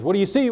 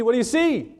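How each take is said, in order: First: Higher demanding question; questioning Samuel. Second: Much higher pressing repeat; insistent repeat. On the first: Samuel demanding an answer from the witch, raised. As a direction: ask it up high, insisting. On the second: Samuel repeating his question to the witch, very high. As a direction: push it up even higher, insisting. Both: Retold or imitated.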